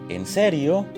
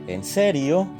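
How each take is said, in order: Both takes have the same delivery.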